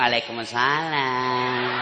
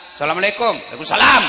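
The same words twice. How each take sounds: First: Soft, slow, low sultry greeting; seductive wife. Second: Firm wife. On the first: Wife answering her husband's phone call, soft and sultry. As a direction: coo it slowly to tempt him. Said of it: "Suara begini yang kasih nafsu". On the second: Wife answering her husband's phone call, firm and curt. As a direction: answer curtly, no softness. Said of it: "Coba kau tegas". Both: Acted.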